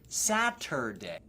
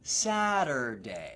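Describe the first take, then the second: First: The middle t is a hard t. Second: The middle t is a flap. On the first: The speaker calls it wrong. "so it's not Saturday" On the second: The speaker calls it right. "This is a flap T"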